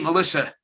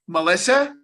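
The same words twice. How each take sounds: First: The name is said warmly, like a familiar greeting. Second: The name is said uncertainly, like a question. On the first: The caller already knows the person. The speaker calls it right. "I'd go, hey" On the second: The caller is unsure whether they know the person. The speaker calls it wrong. "I wouldn't go"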